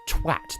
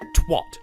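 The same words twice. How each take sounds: First: The word is said with a British pronunciation. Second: The word is said with an American pronunciation. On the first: The speaker calls it right. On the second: The speaker calls it wrong.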